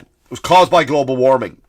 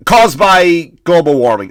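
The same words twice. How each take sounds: First: Said in the usual way. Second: Louder, slow, mocking repeat; hammed-up parroting of the official line; mocking the governor. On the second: Mocking the governor's excuse for the fire, slow and loud. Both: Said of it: "That's what he said".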